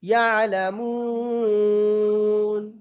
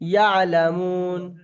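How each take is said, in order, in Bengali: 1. স্বরটি দীর্ঘ সময় ধরে টানা হয়। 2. স্বরটি অল্প সময় ধরে টানা হয়। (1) "তিন আলিপ টান দিই আরেকটু বেশি দিতে হবে" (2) "আমি একালিপ টান দিয়ে পড়ছি"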